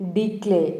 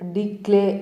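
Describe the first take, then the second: Both takes have the same delivery.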